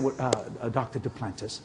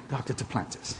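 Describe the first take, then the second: First: Mock hushed awe, soft and low. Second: Soft, low, awed repeat of the name; hushed. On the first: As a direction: whisper the name like it's sacred money talk. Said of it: "they get real quiet when they start talking money". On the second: Retold or imitated. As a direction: say it again, barely above a breath. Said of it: "they get real quiet".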